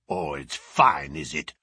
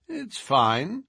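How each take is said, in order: First: Deep sneering bruiser growl. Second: Light, higher, unbothered reply; calm amused Holmes; cool detective. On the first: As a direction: throw his words back with a growl. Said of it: "growled the savage". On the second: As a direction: toss it off lightly. Holmes answers coolly. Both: A narrator's reading.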